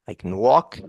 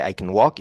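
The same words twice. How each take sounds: First: "can" shrunk to "kən" before "walk"; "I can walk" with a weak "kən"; reduced schwa can. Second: "can" as "kən", only the C and N; clipped "kən walk"; reduced can again. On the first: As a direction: swallow the vowel in "can". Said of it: "When I say I can walk". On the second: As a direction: barely voice the vowel of "can". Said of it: "Only the C and the N". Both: Shown as a demonstration.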